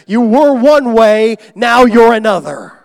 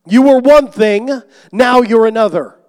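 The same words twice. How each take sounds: First: Much louder and higher, slow; emphatic preaching. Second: Emphatic preaching. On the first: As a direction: thunder it from the pulpit. Preaching climax. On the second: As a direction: hammer the repeat home even harder. Preaching climax, repeated. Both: Acted.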